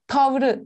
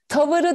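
First: The word has two syllables, dropping the middle vowel. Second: The word has three syllables, keeping the middle vowel. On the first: The speaker calls it right. "Tavrı diyoruz" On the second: The speaker calls it wrong. "Tavırı değil"

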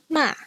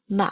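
First: It is said with the fourth tone. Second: It is said with the third tone. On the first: "here is the fourth tone" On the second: "the third tone is represented with a reverse circumflex"

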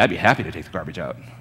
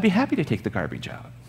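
First: The voice sounds grudging and mocking. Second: The voice sounds warm and truly cheerful. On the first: The speaker resents doing the chore. "it means a completely different thing" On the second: The speaker is glad to do the chore. "You can say in a happy way"

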